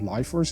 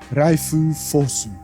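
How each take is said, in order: First: It is said with English sounds. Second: It is said with Japanese sounds.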